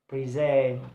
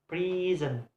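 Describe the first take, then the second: First: The stress is on the second syllable. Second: The stress is on the first syllable. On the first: The word is used as a verb. "if the word function as a verb, the stress uh, is placed on the second syllable" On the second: The word is used as a noun. "if word being used serves as a noun, the stress is placed on the first syllable"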